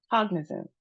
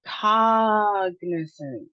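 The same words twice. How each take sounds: First: Said in the usual way. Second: "Cognizant" slow, first syllable held long as kahg; first-syllable stress. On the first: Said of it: "So let's try it". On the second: Shown as a demonstration. Teacher showing emphasis on first syllable, slow stressed start. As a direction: stretch and punch the "Cog" in "Cognizant". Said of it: "Emphasis on the first syllable".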